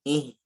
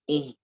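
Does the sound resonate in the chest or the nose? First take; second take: nose; nose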